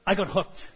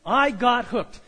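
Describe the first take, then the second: First: Said in the usual way. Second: Emphatic repeat. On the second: Shown as a demonstration. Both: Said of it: "repeated for emphasis".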